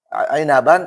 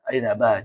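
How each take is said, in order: First: The word ends with an 'an' sound. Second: The word ends with a long 'a' sound. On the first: This is the word's full form. "Aslinya apa?" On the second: The reader stops on this word. "kalau kita wakaf"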